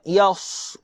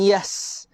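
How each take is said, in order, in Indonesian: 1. Bunyi s-nya berat, terdengar tebal dan bertekanan. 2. Bunyi s-nya ringan, terdengar tipis dan biasa. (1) "jaga huruf sad" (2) "Bukan yas"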